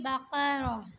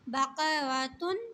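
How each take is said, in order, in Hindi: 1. शब्द आख़िरी tun अक्षर के बिना खत्म होता है। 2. शब्द के अंत में आख़िरी tun अक्षर आता है।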